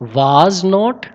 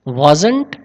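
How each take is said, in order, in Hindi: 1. यह दो अलग-अलग पूरे शब्दों की तरह बोला जाता है। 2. यह एक छोटे, संक्षिप्त शब्द की तरह बोला जाता है।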